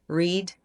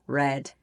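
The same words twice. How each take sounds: First: It has the base form's vowel. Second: It has a changed vowel. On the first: It is the present form of the verb. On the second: It is the past form of the verb.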